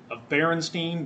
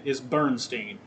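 First: "Berenstein" said as Beh-ren-steen, three syllables. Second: "Bernstein" said as Burn-steen, two syllables. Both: Shown as a demonstration.

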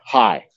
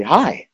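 First: Off-sounding greeting. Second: High, bright-pitched friendly hi; an upbeat, high-pitched greeting. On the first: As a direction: greet as if something's wrong. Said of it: "something was wrong". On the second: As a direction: greet with a lifted, welcoming pitch. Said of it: "emotional intent behind the word". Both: Shown as a demonstration.

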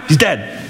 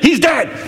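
First: Said in the usual way. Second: "He's" hit high and hard, pitched well up; insistent. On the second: Acted. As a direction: hammer home "He's dead" as if to slow pupils. Jesus insists on the death.

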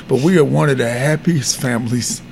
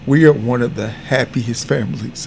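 First: "we" pressed hard, the rest quieter and lower; "we" given the weight, low and hushed; stress on we. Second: "are" pressed hard as if to insist it is true; stress on are. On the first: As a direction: lean on "we", as in our family above all. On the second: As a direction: lean on "are", low and hushed. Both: Real, not acted.

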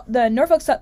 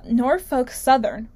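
First: Rushed Norfolk Sou- cut off mid-word; tongue-tied stumble. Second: Slow, deliberate Norfolk Southern; careful retry. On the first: Host trips over the company's name, rushed. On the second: Host retries the tricky company name, slow and careful. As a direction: spell out Norfolk Southern slowly, syllable by syllable. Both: Real, not acted. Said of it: "is Norfolk Southern a tongue twister?".

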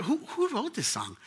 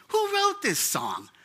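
First: Said in the usual way. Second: High, slow wondering "Who wrote this song?"; amazed question. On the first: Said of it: "And I told her". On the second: Retold or imitated. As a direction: ask it in wonder, drawn out and much higher. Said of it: "And I said".

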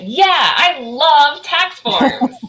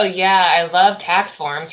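First: Very slow, high, drawn-out mock enthusiasm; sarcastic. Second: Said in the usual way. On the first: Shown as a demonstration. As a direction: stretch YEAH and LOVE high, with heavy sarcasm. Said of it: "I wonder if he's been sarcastic". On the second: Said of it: "No, he didn't go".

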